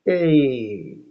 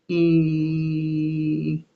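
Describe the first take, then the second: First: The vowel sags down into creaky voice. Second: The vowel is held smooth, then cut off. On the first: The speaker calls it wrong. "this kind of a, a. Um, and he's like drooping" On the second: The speaker calls it right. "you sustain it and you keep it smooth and constant"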